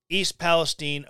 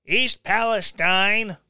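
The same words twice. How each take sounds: First: Put-on "Palestine" said as pa-les-TEEN, ending in "teen"; first pronunciation. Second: "Palestine" said as pa-les-TINE, rhyming with "line"; corrected pronunciation. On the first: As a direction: East "Palestine" with a long ee at the end. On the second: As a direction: East "Palestine" with a long eye sound at the end, slightly louder. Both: Shown as a demonstration. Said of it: "I had to double check I was gonna say it right".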